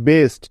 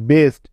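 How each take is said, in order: Both takes have the same delivery.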